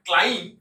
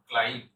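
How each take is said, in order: First: ক্লাইম্ব with the final 'b' sounded, loud; wrong pronunciation. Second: ক্লাইম্ব ending on 'm', silent b; correct pronunciation. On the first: Teacher testing a learner's guess, wrong pronunciation. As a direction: punch ক্লাইম্ব as the mistaken form. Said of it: "তাহলে ভুল উচ্চারণ হচ্ছে". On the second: Teacher giving the answer, correct pronunciation. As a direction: close ক্লাইম্ব on the m. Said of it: "এর উচ্চারণ হবে". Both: Shown as a demonstration.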